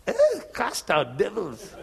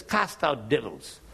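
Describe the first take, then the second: First: Slow, amused disbelief with a laugh; mock-baffled counselor; incredulous. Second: Said in the usual way. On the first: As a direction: question it like it's absurd. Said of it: "And he said". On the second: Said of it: "I said".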